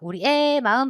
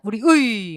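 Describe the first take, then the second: First: The particle is pronounced with the vowel 'e'. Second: The particle is pronounced with the vowel 'ui'. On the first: "애를 허용한다" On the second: "의가 원칙"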